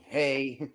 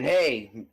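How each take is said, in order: First: Understated little attention-getter; subtle "hey". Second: Acted blunt "hey"; unsubtle callout. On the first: Acted. Game master discreetly getting one player's attention, subtle hey. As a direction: drop in a discreet, easy "hey". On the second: Game master showing how not to get attention, blunt callout. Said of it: "No, I can just subtly".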